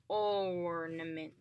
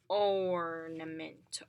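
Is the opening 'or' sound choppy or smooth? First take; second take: smooth; smooth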